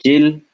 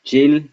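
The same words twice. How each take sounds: First: Chill said high and loud; high demo. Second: Chill said high with a rise; high demo. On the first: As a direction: pitch the syllable Chill up. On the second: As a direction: lift Chill at the end. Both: Shown as a demonstration. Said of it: "teacher models syllable".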